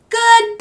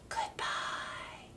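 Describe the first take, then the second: First: It is said very loudly. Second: It is said very quietly.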